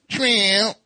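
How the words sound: It is said in a high, shrill voice.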